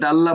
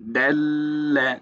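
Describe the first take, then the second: First: The doubled consonant is passed over quickly. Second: The doubled consonant is held for a moment. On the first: The speaker calls it wrong. "Direct আমরা দাল্লা বলবো না" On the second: The speaker calls it right. "এই ধরে রাখলাম যে এই সময়টা দিবেন"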